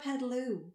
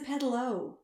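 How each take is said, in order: First: The final vowel is an 'oo' sound. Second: The final vowel is an 'oh' sound. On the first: The speaker calls it wrong. "it's not a pedaloo" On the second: The speaker calls it right. "It's a pedalo"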